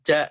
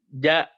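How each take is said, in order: First: Breath audibly escapes after the consonant. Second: No breath escapes after the consonant. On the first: The speaker calls it wrong. "Bukan ja gitu" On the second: The speaker calls it right. "ja nggak ada hamas yang keluar"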